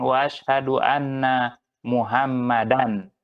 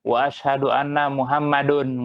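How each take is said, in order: First: The final word ends with an 'an' sound. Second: The final word ends with an 'un' sound. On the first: The speaker calls it right. "pasti mereka bilang wa asyhadu anna Muhammadan" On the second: The speaker calls it wrong. "Ada nggak orang yang syahadat wa asyhadu anna Muhammadun? Nggak ada"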